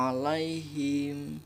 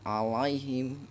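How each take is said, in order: First: Slow "alaihim" from the throat, with a soft ya; correct ain and soft ya. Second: Slow "Alaihim" with a soft, gliding ya; soft lin ya. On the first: Teacher modelling the right reading, slowly. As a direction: draw out "alaihim" gently. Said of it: "Baca a". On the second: Teacher showing the soft lin sound, slowly. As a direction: ease gently through the ya in "Alaihim". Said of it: "dibaca dengan lembut". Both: Shown as a demonstration.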